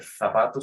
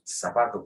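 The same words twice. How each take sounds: First: It starts with a th sound, Castilian style. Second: It starts with an s sound, American seseo.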